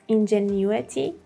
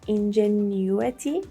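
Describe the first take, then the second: First: The word is said with a British accent. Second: The word is said with a British accent.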